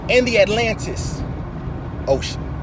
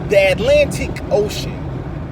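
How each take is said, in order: First: The c in ocean sounds like s. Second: The c in ocean sounds like sh.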